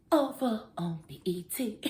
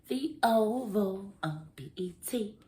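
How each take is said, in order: First: Breathy whispered show title; hushed whisper. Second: Said in the usual way. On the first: Shown as a demonstration. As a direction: whisper the name like a secret.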